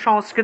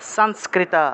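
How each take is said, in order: First: The word begins with an 'sh' sound. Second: The word begins with an 's' sound. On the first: This is the everyday Bengali pronunciation. "তার স উচ্চারণ হবে না" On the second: This is the Sanskrit pronunciation. "স উচ্চারণ হবে"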